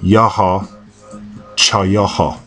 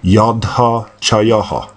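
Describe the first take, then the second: First: The first word has no d sound. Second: The first word has a d sound. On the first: This is the oldest dialect's form. "the oldest pronunciation uh, of the Negev desert" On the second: This is the second dialect's form. "In the second dialect, it would be pronounced"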